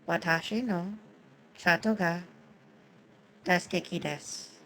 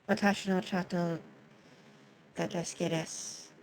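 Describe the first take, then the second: First: The sentence is spoken at a slower pace. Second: The sentence is spoken at a normal pace.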